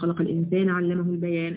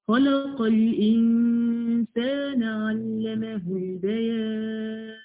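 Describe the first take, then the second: First: The long vowels are kept short and clipped. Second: The long vowels are stretched out melodically. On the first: The speaker calls it wrong. "انت بتقرأي كده تمام، مش ممكن هيبقى فيه صوت حسن" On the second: The speaker calls it right. "لما تتعلمي تقرأيه بالمدود"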